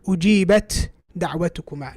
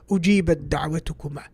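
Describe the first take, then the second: First: The two words are pronounced separately with a break. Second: The two words are joined into one sound. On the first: The speaker calls it wrong. "He wouldn't break up his speech and say" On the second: The speaker calls it right. "he would join the two words. He would say"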